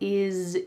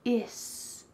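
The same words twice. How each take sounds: First: The word ends with a buzzing Z sound. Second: The word ends with a hissing S sound. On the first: "But that word has a Z sound" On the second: "Here we're keeping it with an S"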